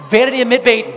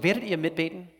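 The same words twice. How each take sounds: First: Much higher, much louder rallying shout. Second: Said in the usual way. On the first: Real, not acted. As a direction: fire up the crowd with it. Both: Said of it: "ihr seid lahm".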